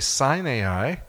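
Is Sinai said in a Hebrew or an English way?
English. Sinai is said the usual English way. This is the form foreign tourists recognize. The speaker calls it wrong. "With most tour groups, if I say the name of that mountain, I say Sinai"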